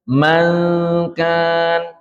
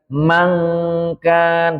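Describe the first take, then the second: First: The n before k is softly concealed. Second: The n before k becomes a full ng. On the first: The speaker calls it right. "tapi mangkan" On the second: The speaker calls it wrong. "bukan mangkan"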